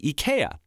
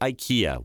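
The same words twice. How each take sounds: First: The name begins with an 'ee' sound. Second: The name begins with an 'eye' sound. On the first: The speaker calls it right. "It's actually IKEA" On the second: The speaker calls it wrong. "which most of us pronounce incorrectly. I just did"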